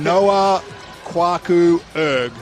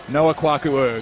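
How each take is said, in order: First: The name is said slowly. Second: The name is said faster.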